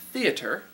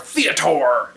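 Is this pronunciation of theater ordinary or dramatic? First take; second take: ordinary; dramatic. First: The word is said in an ordinary everyday way. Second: The word is said in a theatrical, dramatic way.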